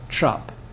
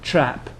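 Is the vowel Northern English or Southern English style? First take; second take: Northern; Southern. First: The vowel is a Northern English open a. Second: The vowel is a Southern English front a. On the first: "in the north of England you get trap" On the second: "This is the English, the Southern English A"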